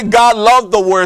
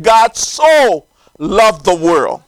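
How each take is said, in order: First: Said in the usual way. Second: "so" drawn out and stressed, then a falling finish. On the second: Shown as a demonstration. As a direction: lean long and hard on "so". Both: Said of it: "That word so is emphasizing".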